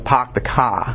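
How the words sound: It is said in a Boston accent. "they'd, you know"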